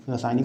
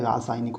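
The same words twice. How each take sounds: First: रासायनिक starting with short ra; wrong short vowel. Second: रासायनिक starting with long raa; correct long vowel. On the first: Teacher showing the mistake, short first vowel. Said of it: "नहीं होता है". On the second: Teacher correcting the word, long first vowel. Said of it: "होता है". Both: Shown as a demonstration.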